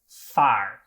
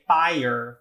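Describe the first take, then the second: First: The word is said with one syllable. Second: The word is said with two syllables. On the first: The speaker calls it wrong. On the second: The speaker calls it right.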